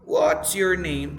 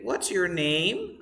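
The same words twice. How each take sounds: First: "What's your name?" slow, loud on "What's", falling after; stress at the beginning. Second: "What's your name?" slowly climbing on "name"; wrong rising intonation. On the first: Teacher corrects the wrong version, front-stressed question. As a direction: punch "What's" and let "name" drop. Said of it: "The stress at the beginning". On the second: Teacher shows what we never say, end-stressed question. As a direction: put the lift on "name" instead of "What's". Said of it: "We never say". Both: Shown as a demonstration.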